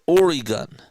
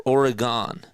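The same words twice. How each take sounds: First: Oregon with a long "ee" in the middle, "OR-ee-gun"; Oregon said "OR-ee-gun", ending reduced to "gun". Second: Oregon said "OR-uh-gahn", open "gahn" ending; Oregon with a clear "gahn" at the end. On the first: Commentator offering a second version of Oregon. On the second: Commentator contrasting the other way to say Oregon. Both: Shown as a demonstration. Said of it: "Or Oregon?".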